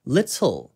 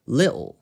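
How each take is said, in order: First: The T is pronounced clearly and crisply. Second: The T is swallowed as a glottal stop. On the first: "T 발음을 명확하게 살려서" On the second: "glottal stop이 있는 코크니 악센트로 발음을 하게 되면요. 아까 제가 말씀드린 뭔가 먹는 느낌으로"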